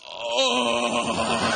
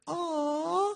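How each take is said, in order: First: It is said in a coarse, rough voice. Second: It is said in a clear, sweet voice.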